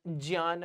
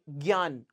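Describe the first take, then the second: First: It is said the careful standard way. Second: It is said the common everyday way. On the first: The speaker calls it right. "उसका शुद्ध उच्चारण ज्ञान होता है" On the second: The speaker calls it wrong. "जिसे आप कह देते हैं भाई ज्ञान"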